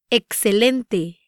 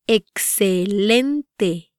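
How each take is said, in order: First: Said in the usual way. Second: "Excelente" very slowly, syllable by syllable; "Excelente" drawn out for learners to copy; slow pronunciation demo. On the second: Shown as a demonstration. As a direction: stretch out every syllable of "Excelente". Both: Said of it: "try pronouncing these words".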